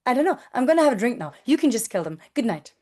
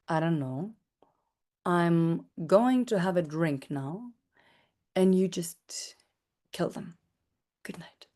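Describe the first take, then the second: First: It sounds hurried, smiling and meek, like an intern. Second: It sounds like a commanding, powerful mafia boss.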